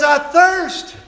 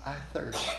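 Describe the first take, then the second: First: Loud, high preacher's cry; climactic cry. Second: Hushed repetition. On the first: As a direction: ring it out to the back row. Jesus' cry climaxing sermon. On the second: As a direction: let it fall quietly after the storm. Quiet repeat after climax. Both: Acted.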